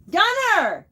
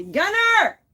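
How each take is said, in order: First: Loud high call again. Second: Loud high call across the house. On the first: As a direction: yell his name down the hall. Calling son again. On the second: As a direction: yell for him down the hall. Calling son from another room. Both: Real, not acted.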